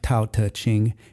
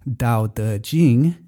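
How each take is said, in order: First: The first consonant is voiceless without a puff. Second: The first consonant is voiced with throat vibration. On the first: The speaker calls it right. "your throat is not vibrating" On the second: The speaker calls it wrong. "your throat is vibrating"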